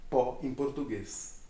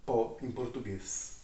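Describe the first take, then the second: No difference in how they are said.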